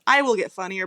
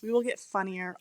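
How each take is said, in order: First: I punched louder; stress on I. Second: Said in the usual way. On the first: Real, not acted. Co-host correcting herself to leave Brett out, stress on I. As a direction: hit the word I hard.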